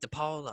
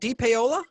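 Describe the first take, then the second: First: The ending vowels merge smoothly into one sound. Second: Each vowel in the ending is sounded separately. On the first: The speaker calls it wrong. "because you want to be cool and smooth" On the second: The speaker calls it right. "you just got to sound it out"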